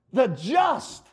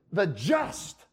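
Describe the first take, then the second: First: "the just" with "just" pushed higher; stress on JUST. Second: "The just" said softly with a rise on "The"; stress on the just. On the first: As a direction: punch the word "just". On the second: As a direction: lead with "The", quiet and rising. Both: Shown as a demonstration. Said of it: "you can emphasize different parts of it".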